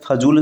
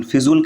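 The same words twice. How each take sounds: First: फजूल with short "fa" first; correct form. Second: फिजूल with "fi" first; wrong form. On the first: Teacher giving the correct form, "fa" opening फजूल. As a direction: say फजूल as "fazool". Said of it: "शुद्ध होता है". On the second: Teacher citing the rejected form, "fi" opening फिजूल. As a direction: say फिजूल as "fizool". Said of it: "कहना अशुद्ध है". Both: Shown as a demonstration.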